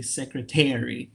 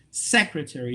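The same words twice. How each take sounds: First: Secretary stressed late, on TAR; wrong stress. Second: Said in the usual way. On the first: Shown as a demonstration. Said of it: "you don't say secretary". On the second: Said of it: "the stresses, if the word you say secretary".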